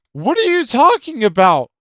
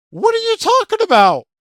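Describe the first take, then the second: First: Said in the usual way. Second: Much higher and faster, mock disbelief; incredulous squeal. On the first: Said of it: "And I'm like". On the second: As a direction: shoot up high and fast in mock outrage. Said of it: "I'm like".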